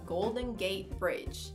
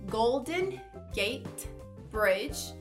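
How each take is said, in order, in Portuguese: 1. Ela é dita rápido, o T de gate some. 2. Ela é dita devagar, com cada palavra separada. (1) "falando mais rápido, até mesmo com mais naturalidade" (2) "praticando a pronúncia de uma forma devagar"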